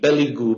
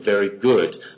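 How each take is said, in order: First: Said with an L sound and no final D. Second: Said with an R sound and a final D.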